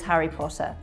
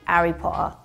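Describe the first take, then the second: First: It is said in an RP accent. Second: It is said in a Cockney accent.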